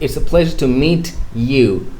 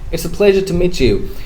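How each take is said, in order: First: The t and y are said separately. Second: The t and y blend into a ch sound. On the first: The speaker calls it wrong. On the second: The speaker calls it right.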